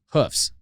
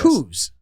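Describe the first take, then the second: First: The word ends with an f sound. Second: The word ends with a v sound. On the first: "it felt wrong" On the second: "F is a V, right?"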